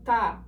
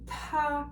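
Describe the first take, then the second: First: The t is said without a puff of air. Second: The t is said with a puff of air. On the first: The speaker calls it wrong. "So it's not ta" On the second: The speaker calls it right. "there is a bit of air that comes out with the T"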